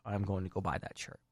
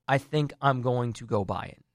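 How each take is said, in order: First: Much softer, lower, muttered to self; a soft, lower promise to yourself; quiet aside. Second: Said in the usual way. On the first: Shown as a demonstration. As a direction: say it half under your breath. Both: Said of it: "repeated as aside".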